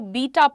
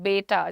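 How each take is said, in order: First: The first vowel sounds like 'bee'. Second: The first vowel sounds like 'bay'. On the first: The speaker calls it wrong. "B E T A को बीटा पढ़ते हैं वो लोग" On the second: The speaker calls it right. "The correct pronunciation is बेटा, जैसे हमारे घर का बेटा"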